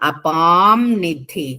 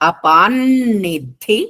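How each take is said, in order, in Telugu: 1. nidhi ముందున్న నాసికం m లా వినిపిస్తుంది. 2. nidhi ముందున్న నాసికం n లా వినిపిస్తుంది. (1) "అపాం నిధి అనొచ్చు" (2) "గ్రామటికల్ గా అయితే అనుస్వరం తర్వాత నా ఉంది కాబట్టి నకారం లాగా"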